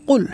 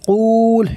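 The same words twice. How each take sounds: First: The vowel is short, with no drawing out. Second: The vowel is drawn out and lengthened. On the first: The speaker calls it right. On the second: The speaker calls it wrong.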